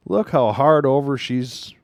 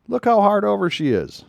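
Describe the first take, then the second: First: Said in the usual way. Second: Awed exclamation, high; amazed. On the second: Real, not acted. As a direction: pitch jumps high in amazement at "how". Amazed at turn.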